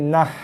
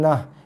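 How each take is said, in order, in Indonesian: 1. Bunyi h-nya keras, bunyi tenggorokan yang tegang. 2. Bunyi h-nya lembut, hembusan nafas biasa. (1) "Ini nah. ... Ha pedas eh" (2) "Ni bukan nah"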